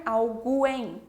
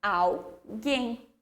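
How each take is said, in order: First: Alguém mispronounced al-GWEN, with the U heard; deliberate wrong "gwen" in alguém; wrongly sounded U. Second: Alguém said al-GHEN, hard G and no w; hard-G alguém without a glide; silent U. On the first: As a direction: say "alguém" with a w glide after the G. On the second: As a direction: say "alguém" correctly, U left silent. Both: Shown as a demonstration. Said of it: "nós não vamos falar alguém".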